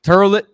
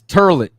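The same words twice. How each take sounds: First: Toilet sounds like turlet, Brooklynese style. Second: The same.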